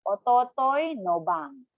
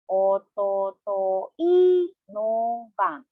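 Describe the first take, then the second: First: It is said at a normal, connected speed. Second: It is said slowly, syllable by syllable.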